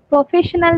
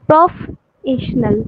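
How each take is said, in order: First: Said in the usual way. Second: প্রফেশনাল very slowly, broken as "প্রফ, এশনাল"; drawn-out, chunked প্রফেশনাল for teaching; split into syllables. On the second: Shown as a demonstration. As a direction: demonstrate the division of প্রফেশনাল with a long gap after "প্রফ". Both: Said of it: "আমরা syllable ভাগ করে পড়লাম".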